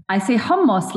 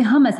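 First: Hummus with a throaty Arabic h and short u; Arabic pronunciation. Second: Hummus the English way, plain h, hum-us; English pronunciation. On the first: Telling the host how she says hummus. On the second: Showing the host the English hummus. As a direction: say hummus like an American. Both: Shown as a demonstration. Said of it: "I don't say hummus".

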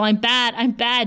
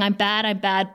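First: Retold shouting. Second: Understated, subdued retelling of a sob; retold sobbing. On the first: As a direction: imitate desperate shouting at half strength. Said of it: "She's shouting at him". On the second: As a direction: report a tearful quote without crying. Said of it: "she's sobbing now".

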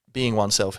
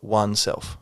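First: Said in the usual way. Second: "oneself" split into two words, one self; pun on ONE self. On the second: Shown as a demonstration. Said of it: "I do enjoy the pun of".

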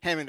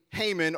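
First: Haman said "HAM-un"; alternative pronunciation. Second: Haman said "HAY-mun"; long-a pronunciation. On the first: Preacher offers it to keep them interested, Haman as "HAM-un". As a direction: say Haman with a short a. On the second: Preacher names one guy to congregation, Haman as "HAY-mun". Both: Shown as a demonstration. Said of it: "or you can call him".

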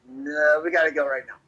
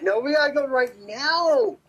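First: Said in the usual way. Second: Higher, rising stress on "now"; insistent repeat. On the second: Retold or imitated. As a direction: push "now" upward and stretch it out. Retold urging, repeated more insistently.

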